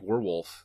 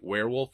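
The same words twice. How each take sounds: First: "werewolf" said with a first syllable like "wur"; German-style pronunciation. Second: Said in the usual way. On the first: Shown as a demonstration. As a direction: make "werewolf" start like "wur", not "wear". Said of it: "like, less E in the U". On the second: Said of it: "I know it's like werewolf".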